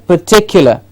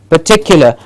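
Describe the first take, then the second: Both takes have the same delivery.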